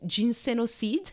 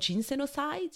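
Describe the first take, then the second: First: The word is pronounced the French way. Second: The word is pronounced the English way. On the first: "let's just go with the French pronunciation" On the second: "you would say in English"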